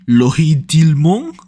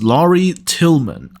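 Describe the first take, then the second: First: The name is said with a strong French accent. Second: The name is said with an English accent. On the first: "maybe in French. Uh, I think that was too much of an accent" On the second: "I think that's how you pronounce it in English"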